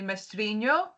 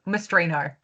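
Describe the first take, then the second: First: The name is said the Portuguese way. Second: The name is said the Australian way.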